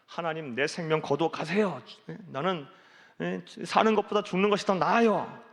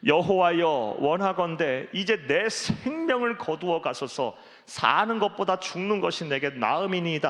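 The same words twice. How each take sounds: First: Imitated protest, rising higher at the end; mock angry complaint. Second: Forceful, slightly raised Bible reading; loud scripture reading. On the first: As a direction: act out an exasperated outburst at God. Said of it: "얼마나 막 화가 났으면". (화가 나서 하나님께 따지는 흉내) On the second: Acted. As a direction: proclaim the verse, drawing out the plea. 삼 절 말씀 읽겠습니다. (힘주어 외치듯 읽는 성경 구절)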